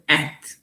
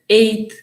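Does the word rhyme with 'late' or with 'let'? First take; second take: let; late. First: The vowel is short, rhyming with 'let'. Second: The vowel is long, rhyming with 'late'. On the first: "or at" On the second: "You can pronounce it either ate"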